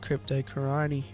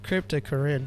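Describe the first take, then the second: First: The name ends with a 'roni' sound. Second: The name ends with a 'rine' sound. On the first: The speaker calls it wrong. "I say Crypto Coroni. Because that's how I roll. That's how George Farmer says it" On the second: The speaker calls it right. "It's Crypto Corine. That's what I always said"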